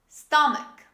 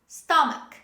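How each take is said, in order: The two takes are said the same way.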